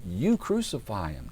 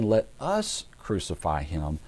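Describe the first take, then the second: First: "You" leaned on, the rest slow; stress on YOU. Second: "us" drawn out and punched; stress on US. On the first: Preacher showing the crowd handing it to Pilate, stress on "You". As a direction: put the weight on "You" at the start. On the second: Preacher showing what the crowd did not say, stress on "us". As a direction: lean slowly on "us" in "Let us". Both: Shown as a demonstration. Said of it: "notice they're not saying".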